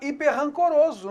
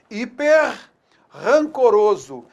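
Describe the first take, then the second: First: Only one R sound is heard in the middle. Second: Two separate R sounds are heard in the middle. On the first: "Só que eu vou ter apenas um som R" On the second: "Eu tenho dois sons R"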